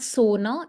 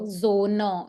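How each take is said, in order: First: The word begins with a voiceless s sound. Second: The word begins with a voiced z sound. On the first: The speaker calls it wrong. "so that is why it's not sona" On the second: The speaker calls it right. "it's z"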